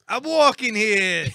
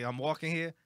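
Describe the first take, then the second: First: Loud, high, drawn-out New York shout; Italian New York accent. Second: Said in the usual way. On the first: Shown as a demonstration. Put on the spot by co-hosts, shouting a bad New York accent. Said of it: "like, Italian New York accent". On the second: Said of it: "number one thing people say".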